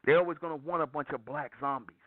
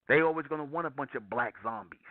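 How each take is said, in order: Both takes have the same delivery.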